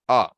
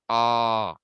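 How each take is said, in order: First: The vowel is held for one short beat. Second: The vowel is held for two beats. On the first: "one length" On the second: "two lengths"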